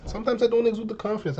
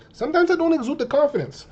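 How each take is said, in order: First: Said in the usual way. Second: Higher pitched. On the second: Real, not acted. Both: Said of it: "I won't lie to you".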